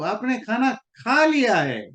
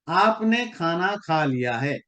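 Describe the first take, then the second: First: It is said in a mildly surprised tone. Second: It is said in a plain, neutral tone. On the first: The listener has already eaten, to mild surprise. "ओ अच्छा, you have already done." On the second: The listener has simply eaten. "इसका simple मतलब यही है कि आपने खाना खा लिया।"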